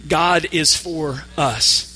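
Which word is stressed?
us. The stress is on the word us. God is on the side of us in particular. "And now the word us"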